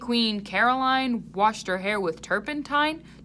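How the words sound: The words are spoken in a full voice. "He used his speaking voice to ask so they could hear him"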